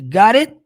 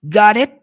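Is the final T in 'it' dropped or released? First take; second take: dropped; dropped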